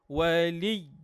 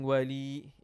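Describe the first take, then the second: First: The final sound is short and forceful. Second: The final sound is stretched out long. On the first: The speaker calls it right. "it has to be short and with strength" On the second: The speaker calls it wrong. "Without saying wali"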